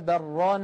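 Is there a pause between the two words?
no. The words run together with no pause.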